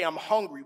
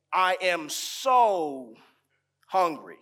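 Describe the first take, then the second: First: Said in the usual way. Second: "so" stretched slow and leaned on; stress on so. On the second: Shown as a demonstration. Preacher showing how we say we're hungry, "so" stretched. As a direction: draw out "so" in "I am so hungry". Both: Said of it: "We don't just say".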